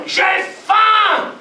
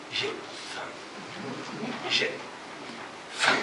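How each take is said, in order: First: High, loud shout on faim; belly howling. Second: Voiceless whisper, word by word; hungry belly cry. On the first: Starving belly howling at night, loud shout. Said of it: "son ventre hurle". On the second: Hungry belly whispering to Hiroshi, voiceless. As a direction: breathe it like an empty stomach. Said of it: "qui crie". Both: Acted.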